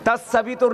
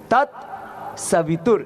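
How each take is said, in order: First: A vowel follows the first t sound. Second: No vowel follows the first t sound. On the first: The speaker calls it wrong. "नहीं" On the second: The speaker calls it right. "तत् ता आधा"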